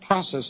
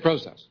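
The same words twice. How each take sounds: First: The first vowel is said the American way. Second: The first vowel is said the Canadian way. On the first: The speaker calls it right. "I think process much stronger" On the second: The speaker calls it wrong. "We say process, but which I think is a weaker word"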